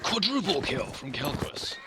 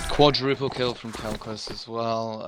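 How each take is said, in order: First: It is said with loud, excited energy. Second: It is said flatly, without excitement.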